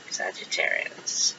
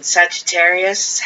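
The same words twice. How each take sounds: First: Breathy whispered name; hushed whisper. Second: Said in the usual way. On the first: Acted. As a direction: whisper it like a secret. Whispered repeat of the sign.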